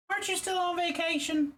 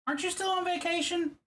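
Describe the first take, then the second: First: High squeak stressing Aren't; high silly voice. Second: High, playful squeak; squeaky voice. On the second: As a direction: ask it in a high silly voice. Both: Shown as a demonstration. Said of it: "I don't know why I'm saying it like that".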